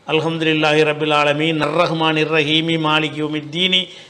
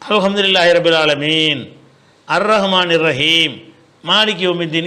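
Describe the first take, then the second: First: It is recited in one breath without stopping. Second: It is recited with a pause after each verse.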